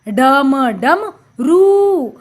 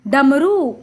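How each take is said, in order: First: डम, pause, then a long रू; sounding out. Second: Said in the usual way. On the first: Shown as a demonstration. Teacher showing children the pronunciation, slowly in pieces. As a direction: split it and stretch रू. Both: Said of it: "हमने इसका उच्चारण किया".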